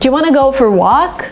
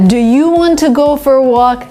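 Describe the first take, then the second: First: Want to is run together as wanna. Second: Each word is said fully and carefully.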